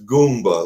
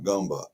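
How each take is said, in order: First: The first syllable has an 'oo' vowel. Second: The first syllable does not have an 'oo' vowel. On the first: This is how the name is meant to be said. The speaker calls it right. "it's Goomba, like the Italian Goomba" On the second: This is how others mispronounced the name. The speaker calls it wrong. "people kept pronouncing it Gumba"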